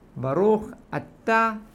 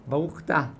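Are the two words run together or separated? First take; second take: separated; run together. First: The two words are separated by a short break. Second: The two words run together without a break. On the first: The speaker calls it right. "ככה צריך להגיד" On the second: The speaker calls it wrong. "לא להגיד ברוך אתה"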